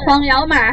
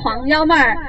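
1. 是用四川话说的。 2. 是用标准普通话说的。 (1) "我们的四川话就是黄幺妹儿" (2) "普通话就是黄幺妹儿"

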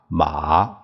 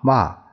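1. 这个音节读第三声。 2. 这个音节读第四声。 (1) "这一二三四声" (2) "这一二三四声"

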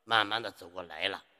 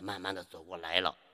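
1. 最后一个字要读出完整的声调。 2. 最后一个字要读出完整的声调。

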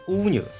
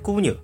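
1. 第一个音节以 w 音开头。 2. 第一个音节以 g 音开头。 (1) "勿能读成蜗牛" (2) "要讲成蜗牛"

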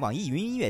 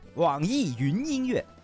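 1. 说得很快。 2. 说得很慢。

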